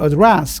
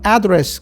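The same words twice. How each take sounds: First: The stress falls the British English way. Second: The stress falls the American English way. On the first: "근데 영국은 address 그런다는 거죠" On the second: "강세 같은 경우는 미국 영어는 address"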